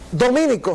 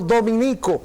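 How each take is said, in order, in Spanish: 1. El acento está en la segunda sílaba. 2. El acento está en la tercera sílaba. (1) "no se dice dominico ... es un falso esdrújulo" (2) "sino dominico"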